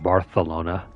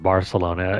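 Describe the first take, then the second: First: The 'c' is said as a 'th' sound. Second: The 'c' is said as an 's' sound. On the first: "with the Spanish accent, I think it's pronounced Barth. There's a lisp here" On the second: "with a Latin or even a Mexican a- accent"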